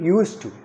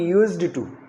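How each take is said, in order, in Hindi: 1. Used, to में बिना अलग d के जुड़ जाता है। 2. Used को साफ़ d के साथ बोला जाता है। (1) "यूज में डी लगा दीजिए और बोलिए यूज्ड टू" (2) "ना कि यूज्ड टू"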